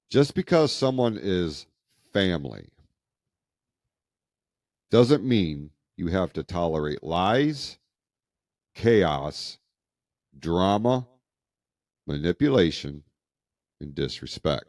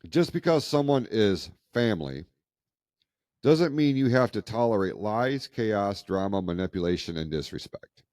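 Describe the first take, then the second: First: It is read more slowly. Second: It is read at a normal pace.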